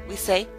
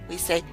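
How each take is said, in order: No difference in how they are said.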